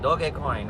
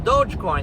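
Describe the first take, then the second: First: The name is said with a Japanese-style pronunciation. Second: The name is said with an English-style pronunciation.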